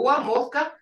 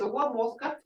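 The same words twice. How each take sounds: First: It is said with a statement tune. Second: It is said with a questioning tune. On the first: It states that the water is boiling. "It's water boiling. But the way the tone is" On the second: It asks whether the water is boiling. "Is water boiling?"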